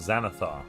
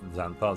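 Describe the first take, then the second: First: The name is said with three syllables. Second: The name is said with two syllables. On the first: The speaker calls it right. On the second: The speaker calls it wrong. "Not Xanth Xanthar"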